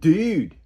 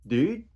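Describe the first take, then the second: First: It sounds amazed, like holy crap. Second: It sounds questioning, asking what was said.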